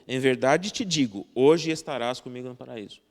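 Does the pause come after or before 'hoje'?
before. The pause comes right before the word hoje. The event itself will happen today. "Outra está dizendo que você vai acontecer aquilo hoje, agora"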